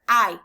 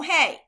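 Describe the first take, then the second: First: "Hay" said like English eye, no h; "Hay" as ai, silent h; Spanish hay. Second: "hey" with an English h and ay vowel; "hey" the wrong way, like a greeting. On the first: Teacher to class, showing "Hay" sounds like eye. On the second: Teacher to class, showing "hey" is the wrong sound. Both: Shown as a demonstration.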